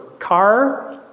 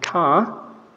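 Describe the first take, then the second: First: The final R sound is clearly pronounced. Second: The final R sound is left silent. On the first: The speaker sounds American. "in the U S, is a rothic variety of English, so you actually pronounce the, the R" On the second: The speaker sounds British. "In the U K, uh, they are non-rothic English, which means that at the end of a syllable, you don't pronounce the R"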